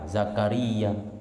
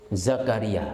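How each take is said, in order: First: The word ends with a long drawn-out vowel. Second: The word ends with a short clipped vowel. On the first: "dibaca panjang Zakaria" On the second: "atau dibaca pendek Zakaria"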